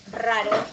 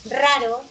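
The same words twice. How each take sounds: First: Said in the usual way. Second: Raro punched louder, with a strong rolled R; stressed R. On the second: Shown as a demonstration. Teacher to class, showing the R sound: loud, emphatic. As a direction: hit the R of Raro hard. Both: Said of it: "Ese es R y ese es R".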